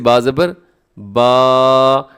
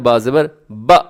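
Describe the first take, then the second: First: The final vowel is drawn out long. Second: The final vowel is cut off with a jolt. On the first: "ऐसे इसको लंबा करना दुरुस्त नहीं है" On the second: "ये झटका कैसे होता है? ... तो ये दुरुस्त नहीं है"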